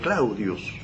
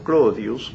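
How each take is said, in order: First: The first vowel is an au diphthong. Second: The first vowel is a plain o sound. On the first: This is the literary written form. "escribía Claudius" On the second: This is how ordinary people said it. "son las pronunciaciones populares de Claudius"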